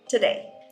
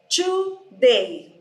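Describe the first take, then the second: First: The first syllable has a reduced vowel. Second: The first syllable has a full vowel. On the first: This is how it is said in English. "in English, you don't pronounce this O" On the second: This is how Brazilian speakers tend to say it. "nós, como brasileiros, tendemos a dizer today, porque a nossa língua é silábica"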